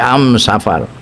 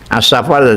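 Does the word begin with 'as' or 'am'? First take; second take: am; as. First: The word begins with an m-sound article. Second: The word begins with an s-joined article.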